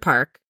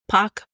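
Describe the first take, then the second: First: The name is said with an American accent. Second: The name is said with a Korean pronunciation. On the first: "as we say with our American accent" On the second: "the way that you pronounce it is"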